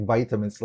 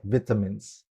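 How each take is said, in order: First: "vitamins" with a long "vy" first syllable, like bite; American-style vitamins. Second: "vitamins" with a short "vit" first syllable, like bit; British-style vitamins. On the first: Guest tells teacher what British speakers never say, American "vitamins" with VY. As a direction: say "vitamins" as VY-tuh-mins. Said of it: "I never heard them saying". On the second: Guest imitates what British people say, "vitamins" with short VIT. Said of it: "I've heard British people saying". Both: Shown as a demonstration.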